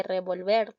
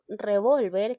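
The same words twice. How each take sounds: First: "revolver" as re-vol-VER; stress on last syllable. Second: "revólver" as re-VOL-ver; stress on middle syllable. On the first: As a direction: lean on the final VER of revolver. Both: Shown as a demonstration. Contrasting minimal stress pair.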